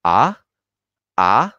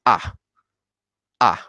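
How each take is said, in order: First: "A" rising steeply at the end; happy tone two. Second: Short falling "A"; angry tone four. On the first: Teacher shows learners tone two, happy rising "A". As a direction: say "A" like a happy question, pitch climbing. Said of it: "el tono más feliz". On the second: Teacher shows learners tone four, angry falling "A". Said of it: "tono enfadado". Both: Shown as a demonstration.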